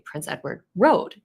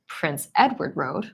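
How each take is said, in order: First: The stress falls on the word Road. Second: The stress falls on the word Edward. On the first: It is a road, not a street. "instead of Prince Edward Street to clarify" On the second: It is Edward, not another prince. "if I want to clarify that it's Prince Edward rather than Prince John"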